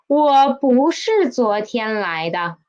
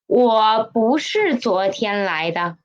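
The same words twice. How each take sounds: First: Said in the usual way. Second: Whispered. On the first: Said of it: "teacher models the sentence". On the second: Shown as a demonstration. Teacher whispers the example sentence for students. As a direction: whisper the line back to the class. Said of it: "teacher repeats the sentence whispered".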